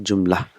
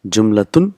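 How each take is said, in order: First: "jumla" ending on an open -la; short everyday form, "jumla", last letter silent; last letter dropped. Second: "Jumlatun" with the final -tun sounded; formal full form, "Jumlatun", last letter voiced; full ending pronounced. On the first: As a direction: say "jumla" without the final -tun. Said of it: "but we'll pronounce it jumla". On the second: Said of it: "last letter is not pronounced". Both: Shown as a demonstration.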